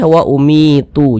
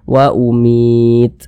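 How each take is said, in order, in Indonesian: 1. Kata ini diakhiri dengan bunyi vokal tambahan. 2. Kata ini berakhir pada bunyi konsonan mati. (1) "Jangan dibaca wa umitu" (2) "tapi dibaca wa umit"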